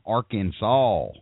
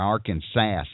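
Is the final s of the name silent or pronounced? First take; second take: silent; pronounced. First: The final s is silent. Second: The final s is pronounced, Tennessee style.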